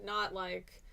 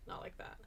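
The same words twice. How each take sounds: First: Said in the usual way. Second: Unvoiced whisper. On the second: Shown as a demonstration. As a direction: whisper it softly.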